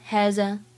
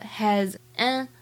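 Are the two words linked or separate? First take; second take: linked; separate. First: The two words are linked together. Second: The two words are said separately.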